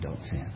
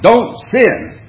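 First: It is said softly, with a tender, loving tone. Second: It is said sharply, with a stern, scolding tone. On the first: The speaker cares for the listener and gently warns them. "You hear compassion, you hear love" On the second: The listener is in big trouble. "you know you're in big trouble"

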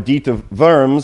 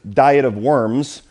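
First: Worms begins with a V sound. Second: Worms begins with an English W sound. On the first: The speaker calls it right. "They say more of a V there" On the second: The speaker calls it wrong. "it says Diet of Worms, but that sounds strange to us"

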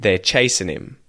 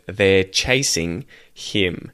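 First: The ending is reduced to an n sound. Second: The ending is a full ing sound. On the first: "an N sound instead of an ing sound" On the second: "instead of"

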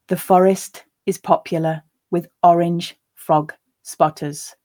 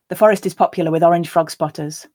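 First: The sentence is said quite slowly. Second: The sentence is said at a natural pace. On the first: "I'll read it first quite slowly for you to grasp the words" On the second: "a second time at a more natural pace"

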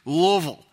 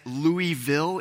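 First: The word is squeezed together into two syllables. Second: The word is said with three separate syllables. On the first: The speaker is from the city. "you just say it in kind of two syllables sort of all stuck together" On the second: The speaker is not from the city. "You can put three syllables in it"

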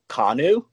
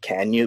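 First: It is said as a single name, Kanu. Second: It is said as the phrase 'can you'. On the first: This is the name's official pronunciation. The speaker calls it right. "It's actually pronounced Kanu" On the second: This is a playful version that sounds like a question. The speaker calls it wrong. "I'm just going to make it Can You"

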